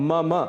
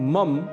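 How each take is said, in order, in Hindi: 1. शब्द का अंत ह्रस्व अ स्वर से होता है। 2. शब्द का अंत शुद्ध म ध्वनि पर होता है। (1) "इसका शुद्ध उच्चारण है मम मम। अंत में अ की ध्वनि अवश्य आनी चाहिए।" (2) "इसे मम बिल्कुल भी नहीं कहना है।"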